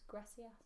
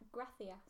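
First: It has a Latin American s sound for the c. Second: It has a Spanish th sound for the c.

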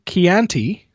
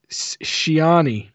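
First: The name is said with a t sound. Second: The name is said without a t sound. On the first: The speaker calls it wrong. "there's no T there" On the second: The speaker calls it right. "so I could get it right"

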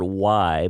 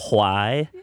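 First: The word starts with a plain W sound. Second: The word starts with a breathy H sound.

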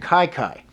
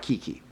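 First: The name is said with an 'eye' vowel. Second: The name is said with an 'ee' vowel. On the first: The speaker calls it right. "They call him Kai Kai" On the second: The speaker calls it wrong. "it's not Kiki"

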